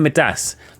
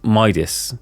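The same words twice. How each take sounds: First: Midas is said in the speaker's own British way. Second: Midas is said in the usual way. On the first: The speaker calls it wrong. "I keep saying Midas. I, I pronounce it incorrectly" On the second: The speaker calls it right. "Is Midas"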